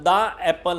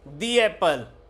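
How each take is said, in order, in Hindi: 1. 'The' को छोटे 'uh' स्वर के साथ बोला जाता है। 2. 'The' को लंबे 'ee' स्वर के साथ बोला जाता है। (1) "तो अगर दा लगाना है तो यहां पर दा एप्पल होगा" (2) "जहां वोवेल साउंड होगी वहां पर क्या होगा"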